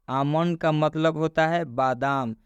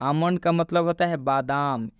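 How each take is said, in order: The two takes are said the same way.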